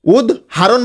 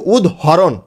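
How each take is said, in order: First: উদাহরণ as "ud-haron", with "ha" in the middle; common pronunciation. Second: উদাহরণ as "ud-horon", with an o sound after h; contrasted pronunciation. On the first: Teacher shows how people say it, উদাহরণ as "ud-haron". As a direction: say উদাহরণ slowly with an "a" after h. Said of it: "উদাহরণ বলি আমরা". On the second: Teacher contrasts it with the usual form, উদাহরণ as "ud-horon". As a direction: round the middle vowel of উদাহরণ to "ho". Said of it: "কিন্তু উদাহরণ". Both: Shown as a demonstration.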